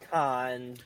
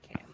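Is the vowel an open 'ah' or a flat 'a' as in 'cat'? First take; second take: open ah; flat a. First: The vowel is an open 'ah' sound. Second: The vowel is a flat 'a' sound. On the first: This is the technically correct French form. "technically it's con, but we're not French" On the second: This is the acceptable American form. "If you're American, you can say can"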